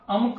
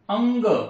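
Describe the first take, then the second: First: The nasal before k is an m. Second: The nasal before k is a velar ng. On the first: The speaker calls it wrong. "अणक किंवा अनक किंवा अमक असा उच्चार करत नाही" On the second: The speaker calls it right. "अंग असा आपण उच्चार करतो"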